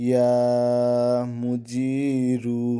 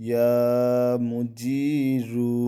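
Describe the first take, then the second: No difference in how they are said.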